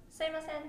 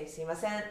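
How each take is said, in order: First: Sumimasen the Tokyo way, clear at first, loose at the end; Tokyo accent. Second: Sumimasen with Osaka stress on sen; Osaka accent. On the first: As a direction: Tokyo Sumimasen with a higher pitch. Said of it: "speak that clearly". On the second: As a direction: let the start of Sumimasen blur and lift the final sen, Osaka-style. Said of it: "See, the sen part". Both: Shown as a demonstration.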